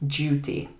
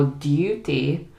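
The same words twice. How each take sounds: First: "duty" starting with a j sound; British "duty" with the d cut into a j; casual British pronunciation. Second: RP "duty" with a you sound; "duty" with d and y both heard; RP pronunciation. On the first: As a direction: say "duty" as JOO-tee. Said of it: "we might just cut the D". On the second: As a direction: say "duty" as DYOO-tee. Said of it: "it sounds like the Queen's English". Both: Shown as a demonstration.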